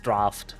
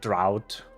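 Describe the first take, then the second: First: The vowel rhymes with 'laughed'. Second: The vowel rhymes with 'out'. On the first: The speaker calls it right. "but it's draft" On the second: The speaker calls it wrong. "I love when people pronounce it drought"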